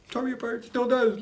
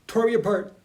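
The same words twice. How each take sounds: First: The voice climbs as he recalls the book; emotional, voice rising high. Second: Moved. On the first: Talking about a book that moved him, voice lifting high. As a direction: pitch lifts with the feeling. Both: Real, not acted.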